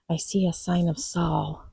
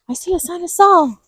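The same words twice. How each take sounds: First: It is said in her normal voice. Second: It is said in a squeaky Mickey Mouse voice.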